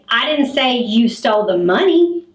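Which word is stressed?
money. The word money carries the strongest stress. Something other than the money was taken. "you stole the purse that the money was in"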